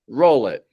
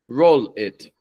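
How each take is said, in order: First: A light L links smoothly into the next word. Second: The dark L is cut off before the next word. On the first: The speaker calls it right. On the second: The speaker calls it wrong.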